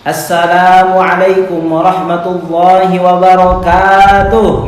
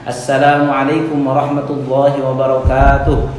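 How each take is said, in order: First: The greeting is said at a high pitch. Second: The greeting is said at a low pitch.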